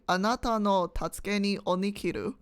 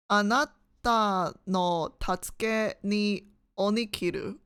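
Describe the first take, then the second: First: Said in the usual way. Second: Slow "Anata no tatsuke ni onikiru", with gaps between words; halting sounding-out. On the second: Shown as a demonstration. Exam taker trying out "Anata no tatsuke ni onikiru" in Japanese, slow and halting.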